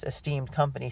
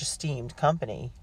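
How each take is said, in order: First: Said in the usual way. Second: "esteemed company" drawn out pointedly; drawn-out words. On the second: A narrator's reading. Mistress Streep needles the twins at dinner, "esteemed company" drawn out. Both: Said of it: "She drew out the words".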